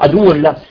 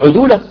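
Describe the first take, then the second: First: It is split into two separate words. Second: It is said as a single joined word. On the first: An enemy to him carries this knowledge. The speaker calls it wrong. "شو فصل بين العدو والله" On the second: The trustworthy ones carry this knowledge. The speaker calls it right. "بدل عدوله"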